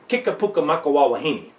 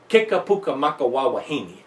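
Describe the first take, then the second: No difference in how they are said.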